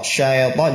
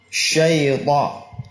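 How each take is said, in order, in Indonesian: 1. Bunyi ya dipotong pendek. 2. Bunyi ya diucapkan penuh. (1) "syaita juga salah, syai. Ya. Tidak sempurna ya-nya" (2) "begitu cara mengucapkan lin"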